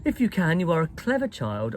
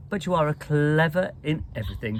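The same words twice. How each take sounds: First: Tart, clipped headmistress retort; sharp asperity. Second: A mildly approving headmistress. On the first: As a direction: bite off the compliment coldly. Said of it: "drawing in her mouth sharply". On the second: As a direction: soften into praise. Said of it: "in her approving way". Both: A narrator's reading.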